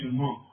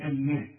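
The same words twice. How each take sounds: First: The m sound is heavy and thick. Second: The m sound is light and thin. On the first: The speaker calls it wrong. "ما نقولش الماء" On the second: The speaker calls it right. "والميم برضه ... هنقول الماء"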